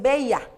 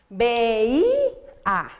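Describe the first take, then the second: First: The stress falls on the 'e'. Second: The stress falls on the 'i'. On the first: This is what is written without the accent mark. The speaker calls it wrong. "ahí dice veía" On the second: This is the intended word, which needs the accent mark. The speaker calls it right. "Para que diga veía, le hace falta el acento"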